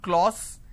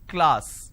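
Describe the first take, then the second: First: The vowel sounds like an 'o'. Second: The vowel sounds like an 'a'. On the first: The speaker calls it wrong. "it's not class" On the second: The speaker calls it right. "it's class"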